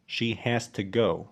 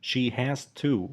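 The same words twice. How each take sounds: First: "to" weakened to a short "tuh" before "go"; slow model sentence with a quick schwa in "to"; reduced "to". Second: "to" said fully with a clear oo vowel; slow, careful "She has to", ending on a full "to"; full form of "to". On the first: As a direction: slip lightly through "to" into "go". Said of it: "تاني واحدة قلنا ت". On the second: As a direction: land on a full, long "to" as the sentence ends. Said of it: "أول واحدة قلنا to لأنها نهاية جملة". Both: Shown as a demonstration.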